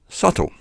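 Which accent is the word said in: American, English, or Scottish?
English. It is said in an English accent.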